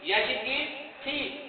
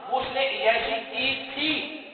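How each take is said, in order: First: عیاشی کی تھی said slower and higher, softer at the end; driving the lesson home; slow repeat. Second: تھی drawn out, said slowly and higher; explaining patiently; stress on thi. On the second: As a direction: lean on تھی to mark the past. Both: Shown as a demonstration. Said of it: "تھے کا مطلب ہوتا ہے past".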